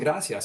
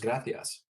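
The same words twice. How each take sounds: First: The c is said like an s. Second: The c is said like a th. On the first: "it wasn't" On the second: "with a Castilian accent"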